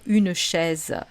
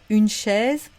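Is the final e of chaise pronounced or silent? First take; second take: pronounced; silent. First: The final e of chaise is pronounced. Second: The final e of chaise is silent. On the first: This is how people in southern France say it. "dans le sud de la France où on va avoir tendance à dire" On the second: This is the standard French pronunciation. "en français standard, on ne le prononce pas à la fin du mot isolé"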